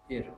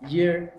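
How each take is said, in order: First: The word begins directly with a vowel. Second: The word begins with a y sound. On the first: The speaker calls it wrong. "and not ear" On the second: The speaker calls it right. "you should actually use year"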